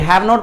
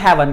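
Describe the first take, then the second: First: It is said as two full words. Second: It is said as one contracted word.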